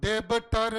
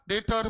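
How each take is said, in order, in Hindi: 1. बीच में b की आवाज़ बोली जाती है। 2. b की आवाज़ पूरी तरह छोड़ दी जाती है। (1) "डेबटर नहीं बोलने का" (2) "डेटर बोलने का। बी is silent"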